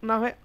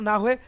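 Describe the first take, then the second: Both takes have the same delivery.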